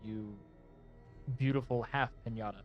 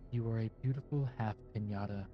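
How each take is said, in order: First: It is said in the speaker's normal voice. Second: It is said in a put-on character voice.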